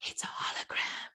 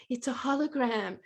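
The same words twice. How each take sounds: First: Voiceless, very soft "It's a hologram."; small secret voice whispering "It's a hologram."; tiny whisper. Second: "It's a hologram." said softly but voiced; quiet voiced echo of "It's a hologram.". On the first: Retold or imitated. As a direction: lean in and breathe "It's a hologram.". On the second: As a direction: repeat "It's a hologram." in a hushed voice. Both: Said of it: "this little tiny voice leaned in and went".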